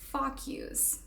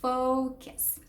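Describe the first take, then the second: First: The word sounds like 'fuck' plus 'yous'. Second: The word has 'foh' then a weak 'kuhs'. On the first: The speaker calls it wrong. "I used to say fuck yous" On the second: The speaker calls it right. "Say focus"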